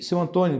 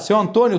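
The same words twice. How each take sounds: First: The voice sounds flat and low in energy. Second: The voice sounds bright and full of energy. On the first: The seller seems uninterested. The speaker calls it wrong. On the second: The seller seems engaged and eager to help. The speaker calls it right.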